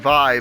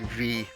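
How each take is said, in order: First: The name is not said like French 'vie'. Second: The name is said like French 'vie'. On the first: This is the pronunciation some viewers expect. The speaker calls it wrong. "some of you might be screaming at the screen like, no, her name is pronounced Vi" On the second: This is the pronunciation the developers confirmed. The speaker calls it right. "confirmed that it's pronounced like V, like C'est la vie, but without the E"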